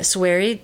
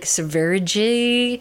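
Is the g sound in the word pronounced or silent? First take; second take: silent; pronounced. First: The g sound is silent. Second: The g sound is clearly pronounced. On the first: The speaker calls it right. "cuz the G is a silence" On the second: The speaker calls it wrong. "I've never known how to say it. I would always be like Sverige"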